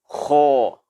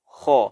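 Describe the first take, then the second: First: The throat sound is thickened too much. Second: The throat sound is thickened only moderately. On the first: The speaker calls it wrong. "tidak boleh kita katakan seperti ini" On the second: The speaker calls it right. "kita tebalkan dia dengan suara tebal yang i'tidal, yang sedang"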